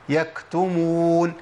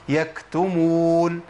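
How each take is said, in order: No difference in how they are said.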